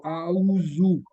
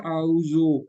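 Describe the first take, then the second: First: اعوذ with a clear u at the end; Arabic-style recitation. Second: اعوذ with the last vowel as an o, Urdu style; Urdu-style recitation. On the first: Teacher shows the corrected Arabic way, اعوذ ending in u. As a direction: round the last sound of اعوذ into u. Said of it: "زو کے بجائے وہ کہتا ہے اس کو او کو او کر دو". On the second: Teacher shows the common Urdu way, اعوذ ending in o. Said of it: "اسی طرح ہم کہتے ہیں اعوذ". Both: Shown as a demonstration.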